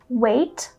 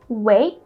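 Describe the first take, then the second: First: The final T is released with a puff. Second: The final T is held and not released.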